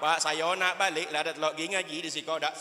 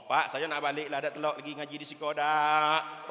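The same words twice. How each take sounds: First: Half-sung mock blubbering to his father; mock sobbing wail. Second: Plain pleading to dad on the phone; a touch of tearful begging; retold whimper. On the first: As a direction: wail it like a homesick child. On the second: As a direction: say it as a mild homesick plea. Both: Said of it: "Sambil melimeh".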